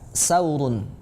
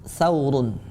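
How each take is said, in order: First: The word begins with an s sound. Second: The word begins with a th sound. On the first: The speaker calls it wrong. "kita terbalik mengucapkannya menjadi sa" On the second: The speaker calls it right. "yang tepat untuk huruf yang ini adalah tha"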